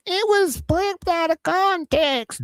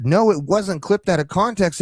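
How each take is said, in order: First: High-pitched, drawn-out crybaby mockery; mock whining. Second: Said in the usual way. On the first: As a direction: mimic a crybaby's complaint, pitched way up. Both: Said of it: "You need to stop crying about".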